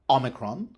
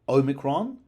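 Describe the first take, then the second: First: The first vowel is short, not like 'oh'. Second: The first vowel is long, like 'oh'. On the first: "It can be short" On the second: "It could be long, O"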